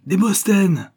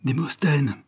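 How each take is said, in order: First: Much higher and louder, a wild cry; frantic shout, voice pitched up high; desperate shout. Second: A first cry for him, raised and anxious; first frantic call. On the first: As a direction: scream his name, beside herself. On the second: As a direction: call out his name, searching. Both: A narrator's reading. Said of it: "criait éperdument Léocadie".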